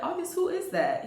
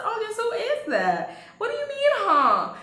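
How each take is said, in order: First: High, probing question; retold pointed question. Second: Hammed-up confrontation, voice pitched way up; indignant repeat. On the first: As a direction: press him for an answer, pitched up. Retold confrontation, first asking. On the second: Repeats the question, confronting him.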